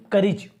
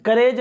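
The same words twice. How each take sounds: First: करीज with an i sound, "ka-rij"; correct vowel demo. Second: करेज with long "ay", like "ka-rayj"; wrong vowel demo. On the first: Teacher recapping the right reading, carefully pronounced. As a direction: model करीज with i in second syllable. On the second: Teacher recapping the mistake, mispronounced. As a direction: show करेज with an e in second syllable. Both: Shown as a demonstration. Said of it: "करेज नहीं".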